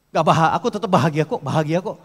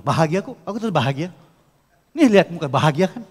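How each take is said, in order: First: Loud, fast insistence that one is happy; forced happy claim. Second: Loud, fast, insisting bahagia kok; forced happy claim. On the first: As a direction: snap out the word bahagia like a defensive boast. (bahagia diucapkan cepat dan keras dengan nada menantang) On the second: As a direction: sell a fake happiness, pushing it. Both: Shown as a demonstration. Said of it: "tapi gini ngomongnya".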